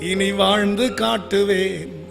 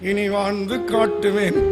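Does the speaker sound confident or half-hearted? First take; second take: confident; half-hearted. First: It is said firmly and with conviction. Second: It is said weakly, without any conviction. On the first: Believe me, I will truly live it out. The speaker calls it right. "என்ன நம்புங்கப்பா அப்படி சொல்லுங்க" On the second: Don't believe me. The speaker calls it wrong. "எனக்கு எப்படி என்ன நம்பாதீங்கப்பா அப்படிதான் கேக்குது"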